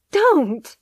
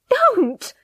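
First: Loud high cry of protest. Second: Even higher, louder second cry. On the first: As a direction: shout it out, pleading. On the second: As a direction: push the repeat up into a desperate shout. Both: Acted. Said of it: "she cried".

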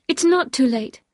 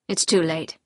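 First: Higher, louder plea with NOT stressed; insistent protest. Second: Lightly voiced resigned husband, a little lower; a hint of a defeated man; resigned Maxim. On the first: Acted. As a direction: protest earnestly, lifting the voice on NOT. Wife protests to husband.

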